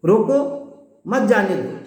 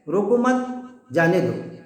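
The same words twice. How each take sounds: First: روکو alone and rising, pause, then مت جانے دو; "روکو" set apart, "مت جانے دو" as one falling phrase; pause after روکو. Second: روکو مت run together, pause, then جانے دو falling; "روکو مت" rising, "جانے دو" dropping after a gap. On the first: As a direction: break after روکو, meaning stop them. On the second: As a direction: break after مت, meaning don't stop them. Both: Shown as a demonstration. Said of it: "لہجے کی وجہ سے".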